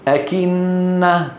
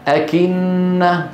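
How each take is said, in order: Both takes have the same delivery.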